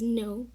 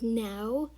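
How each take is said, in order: First: The vowel sounds like the one in go. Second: The vowel sounds like the one in cow. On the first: The speaker calls it right. "you pronounce it as no" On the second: The speaker calls it wrong. "you don't pronounce it as now"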